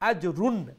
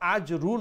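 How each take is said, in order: First: The word ends with a clear n sound. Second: The word ends on a vowel with no n. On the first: The speaker calls it right. "নুন সাউন্ড শোনা যাবে" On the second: The speaker calls it wrong. "আজরু নয়"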